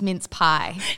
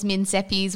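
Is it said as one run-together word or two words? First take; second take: two words; one word. First: It is said as two separate words. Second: It is run together as one word. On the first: The written words were read as intended. The speaker calls it right. "in reality it was mince pie" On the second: The written words were misread. The speaker calls it wrong. "read what she thought was Minseppis"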